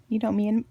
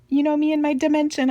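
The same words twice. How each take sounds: First: Said in the usual way. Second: Excited. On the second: Real, not acted. Playful repeat, bigger second take.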